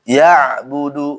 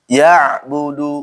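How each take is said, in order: The two takes are said the same way.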